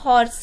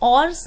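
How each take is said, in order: First: The word starts with an h sound. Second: The word starts directly with a vowel. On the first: The speaker calls it right. "हॉर्स को हम हॉर्स ही बोलते हैं" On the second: The speaker calls it wrong. "ऑर्स नहीं बोलते हैं"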